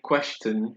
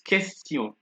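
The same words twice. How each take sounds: First: The word starts with a kw sound. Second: The word starts with a plain k sound. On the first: The speaker calls it wrong. "Don't let me hear you saying question" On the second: The speaker calls it right. "It's question. Can you hear the K?"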